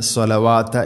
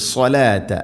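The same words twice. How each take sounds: First: സ്വലവാത്ത read with an extra "wa", as "swa-la-waa-ta"; common misreading. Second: സ്വലാത്ത as "swa-laa-ta", no wa syllable; correct long laa. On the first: Retold or imitated. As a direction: add a waa syllable in സ്വലവാത്ത. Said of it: "അറിയാതെ". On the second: Shown as a demonstration. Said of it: "അത് ശ്രദ്ധിക്കേണ്ടത്".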